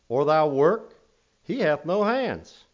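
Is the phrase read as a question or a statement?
statement. It is read with a flat statement tune. The speaker calls it wrong.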